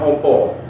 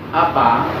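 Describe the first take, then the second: First: The vowels are rounded, like 'o'. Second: The vowels are open, like 'a'. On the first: This is how eastern Javanese speakers say it. "nek wetan kan opo" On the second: This is how Banyumas speakers say it. "mulutnya itu terbuka ketika berbicara"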